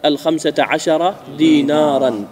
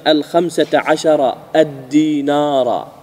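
First: دينارا said slowly without article, dīnāran; slow model ending in دينارا with -an; correct model form. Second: الدينار stretched with its article, ad-dīnāra; very slow counterexample, leaning on الدينار; disallowed form, article doubled. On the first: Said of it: "وإنما تقول". (نموذج صحيح متأنٍّ) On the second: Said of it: "ولا تقول أيضًا". (مثال ممنوع بنطق ممدود) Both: Shown as a demonstration.

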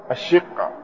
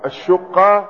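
First: "الشقة" as ash-shiqqa, short i; kasra on the shin. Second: "الشقة" as ash-shuqqa, short u; usual damma reading. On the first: Teacher citing Ubayd's reading, "الشقة" said ash-shiqqa with i. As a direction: give "الشقة" an i after the shin. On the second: Teacher quoting the verse, "الشقة" said ash-shuqqa with u. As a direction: give "الشقة" a u after the shin. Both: Shown as a demonstration. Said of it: "وقرأ عبيد بن عمير بكسر الشين".

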